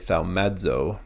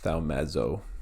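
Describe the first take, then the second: First: The z sound starts with a short d. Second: The z sound has no d before it. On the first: "I've gotten in the habit of doing it with the, the short D. So I'll say thaumazo" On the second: "whereas others might say thaumazo"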